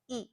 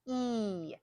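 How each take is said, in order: First: The vowel is short and pure. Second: The vowel is long and stretched out. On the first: "It's shorter, it's a pure sound" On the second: "in English, we stretch it out"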